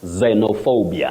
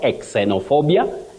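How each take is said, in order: First: The word starts with a z sound. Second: The word starts with a sound other than z. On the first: The speaker calls it right. "You just say xeno" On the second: The speaker calls it wrong. "not xenophobia"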